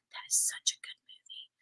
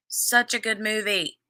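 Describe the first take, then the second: First: Breathy whispered aside, no voice at all. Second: Said in the usual way. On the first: Real, not acted. Whispering an aside to the viewers about the film. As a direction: lean in and whisper it.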